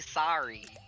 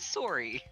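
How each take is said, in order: First: Sorry is said in a non-Canadian way. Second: Sorry is said in a Canadian way. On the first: This is how Canadians do not say it. The speaker calls it wrong. "We also don't say sorry" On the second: This is how Canadians say it. The speaker calls it right. "I'm Canadian, okay? ... We say sorry"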